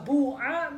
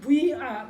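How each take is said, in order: First: The first vowel is a pure u. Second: The first vowel blends u and i. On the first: "domah murni" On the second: "antara doma dengan kasroh kumpul"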